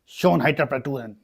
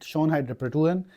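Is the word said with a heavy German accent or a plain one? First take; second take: German accent; plain. First: It is said in an exaggerated German accent. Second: It is said without a put-on German accent.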